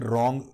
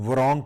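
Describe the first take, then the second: First: The word starts directly with an r sound. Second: The word starts with an audible w sound. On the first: The speaker calls it right. "रॉन्ग डब्ल्यू silent है" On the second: The speaker calls it wrong. "की बजाय"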